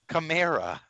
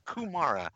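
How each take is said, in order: First: The first vowel sounds like 'ah'. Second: The first vowel sounds like 'oo'. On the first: The speaker calls it right. "It's Kamara" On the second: The speaker calls it wrong. "It's not Kumara. You fucking put a goddamn U in his name"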